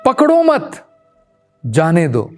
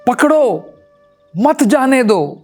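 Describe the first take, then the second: First: The pause comes right after the second word. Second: The pause comes right after the first word. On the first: Do not catch him, let him go. "मैं इसको थोड़ा सा बदल देता हूं" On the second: Catch him and do not let him go. "पकड़ो कि भाई उसे पकड़ लो, मत जाने दो"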